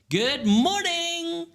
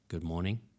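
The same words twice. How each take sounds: First: It is said in a bright, cheerful voice. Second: It is said in a flat, dull voice.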